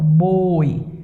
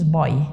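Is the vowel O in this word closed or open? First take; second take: closed; open. First: The O vowel is said closed. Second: The O vowel is said open. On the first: The speaker calls it right. "este O é fechado" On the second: The speaker calls it wrong. "Ninguém diz boi"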